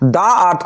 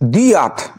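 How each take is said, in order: First: 'The' is said with a short 'uh' vowel. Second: 'The' is said with a long 'ee' vowel. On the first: The speaker calls it wrong. "দা আর্থ কথাটা বললে ভুল হয়ে যাবে" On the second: The speaker calls it right. "উচ্চারণ কি হবে দি"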